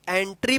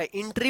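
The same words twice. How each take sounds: First: एंट्री with a short e at the start; एंट्री, e-sound first; correct pronunciation. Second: एंट्री said with an ai-sound at the start, aintri; एंट्री beginning with a diphthong ai; wrong pronunciation. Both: Shown as a demonstration. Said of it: "एंट्री मत पढ़िएगा".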